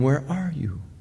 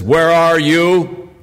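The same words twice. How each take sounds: First: The voice sounds sorrowful and grieving. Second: The voice sounds harsh and threatening. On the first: The speaker grieves over the harm done. The speaker calls it right. "a voice of a sobbing, heartbroken father" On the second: The person is about to be punished. The speaker calls it wrong. "that kind of tone of an arresting policeman"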